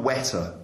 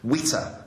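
First: The first vowel is an open e sound. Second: The first vowel is raised toward an i sound. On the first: "not wetter" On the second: "Witter, not wetter, but Witter"

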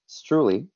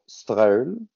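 First: The name is said with an English pronunciation. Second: The name is said with a French pronunciation. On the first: "in English, we call it, we pronounce it Streule" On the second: "In French, my dad and mom will go Streule"

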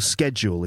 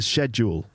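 First: The word is pronounced the American way. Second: The word is pronounced the British way.

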